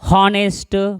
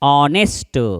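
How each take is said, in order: First: The word starts with an audible H sound. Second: The word starts directly with a vowel sound. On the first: The speaker calls it wrong. "एच आहे म्हणजे हा हा म्हणायचं का, हा हा हा हा हा चुकलं" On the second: The speaker calls it right. "त्याचा उच्चार आहे ऑ, ऑनेस्ट"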